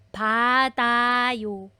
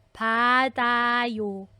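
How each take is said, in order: Both takes have the same delivery.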